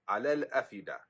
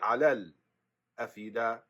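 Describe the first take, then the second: First: The glottal stop is kept with no pause. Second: A short stop comes before the glottal stop.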